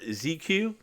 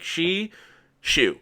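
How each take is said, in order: First: The name begins with a 'z' sound. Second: The name begins with a 'sh' sound. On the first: This is how the casters said it. The speaker calls it wrong. "it he was pronounced Z uh, Z uh, Z Q" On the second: This is how the player himself says it. The speaker calls it right. "he said said it in chat like that, like she shoe"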